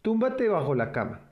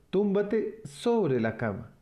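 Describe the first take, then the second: First: Said in the usual way. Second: Slow correction, "sobre" given the weight; stress on sobre. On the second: Shown as a demonstration. Mother correcting herself to Alex, stressing "sobre". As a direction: fix the slip by leaning on "sobre". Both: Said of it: "Perdón".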